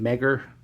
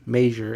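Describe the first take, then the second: First: The name sounds like the word 'Megger'. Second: The name sounds like the word 'measure'. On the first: The speaker calls it wrong. "I pronounced it Megger" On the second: The speaker calls it right. "it should be pronounced measure"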